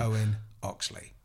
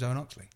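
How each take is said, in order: First: The name is said slowly and carefully. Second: The name is said quickly and casually. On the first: The name is spoken for a pronunciation recording. "say your name into a recording, like somebody's recording it for pronunciation" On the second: The name is spoken in ordinary conversation. "It's a lot different to, my name's Owen Oxley"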